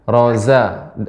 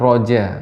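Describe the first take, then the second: First: The consonant is a sharp flowing z sound. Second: The consonant is a j sound instead. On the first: The speaker calls it right. "huruf zai, roza" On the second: The speaker calls it wrong. "bukan roja"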